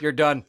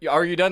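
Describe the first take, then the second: First: It sounds like a flat command. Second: It sounds like a real question.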